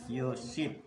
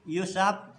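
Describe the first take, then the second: First: The vowel after the s is i. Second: The vowel after the s is a. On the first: "boleh pula dikasrohkan lalu dibaca" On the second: "boleh dibaca fathah"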